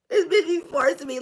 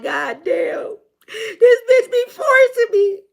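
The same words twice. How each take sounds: First: Said in the usual way. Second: High, loud, drawn-out whine; hammed-up crying complaint, slowly; mock wail. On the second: Reader voicing a partner who feels forced, mock wailing. Voices someone feeling forced.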